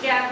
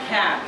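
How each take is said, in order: First: The first k has no puff of air. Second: The first k has a puff of air. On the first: The speaker calls it wrong. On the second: The speaker calls it right.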